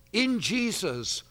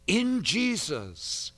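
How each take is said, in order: Both takes have the same delivery.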